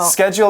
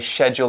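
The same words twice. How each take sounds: First: The word begins with an 'sk' sound. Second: The word begins with an 'sh' sound. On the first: This is the more common pronunciation. "Schedule is more common" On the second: This pronunciation is heard sometimes. "S A C H can make a sh sound sometimes"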